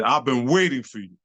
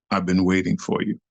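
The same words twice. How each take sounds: First: "waiting" leaned on, falling to the end; acted-out callout at normal pitch; emphatic challenge. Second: Low, measured menace; acted-out villainous low line; ominous challenge. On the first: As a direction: repeat it pointedly, hitting "waiting". Same challenge repeated, emphatic take. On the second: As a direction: drop low like a rival calling you out. Rival's challenge, first low take.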